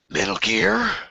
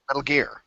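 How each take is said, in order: First: It is exclaimed with a questioning rise. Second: It is said flat, without a rise. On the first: The speaker calls it right. "You say it with a question mark and an exclamation point" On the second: The speaker calls it wrong. "It can't be"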